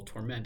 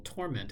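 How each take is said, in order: First: "torment" said tor-MENT; second-syllable stress. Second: "torment" said TOR-ment; first-syllable stress. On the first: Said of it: "put the emphasis on the second syllable". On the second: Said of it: "On the first syllable". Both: Shown as a demonstration.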